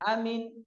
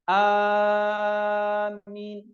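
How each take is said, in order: First: The first vowel is said short. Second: The first vowel is drawn out long. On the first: "diringankan, dipendekkan" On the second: "alifnya itu dipanjangkan dan mimnya itu diringankan"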